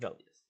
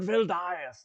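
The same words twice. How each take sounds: First: The name is said quickly and plainly, no weight. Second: The name is said slowly with grand, pompous weight. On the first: The person is just an ordinary named person. The speaker calls it right. "just real quick" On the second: The person is treated as a lofty, important lord. The speaker calls it wrong. "you don't have to like say it with any kind of like special vindication"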